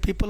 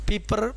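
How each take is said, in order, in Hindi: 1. शब्द का अंत L ध्वनि से होता है। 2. शब्द का अंत R ध्वनि से होता है।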